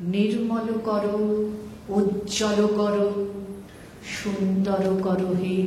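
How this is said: Each of the three phrases has a different delivery. The speaker calls it right. "তিনটে উচ্চারণ আলাদা।"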